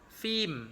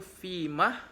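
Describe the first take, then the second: First: The word ends without any h sound. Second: The word ends with an audible h sound. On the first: "tanpa ha" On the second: "dengan ha"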